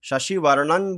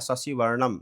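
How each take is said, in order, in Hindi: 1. शब्द का अंत n ध्वनि से होता है। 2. शब्द का अंत m ध्वनि से होता है। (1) "शशिवर्णन बोल सकते हैं" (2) "या शशिवर्णम, दोनों सही है"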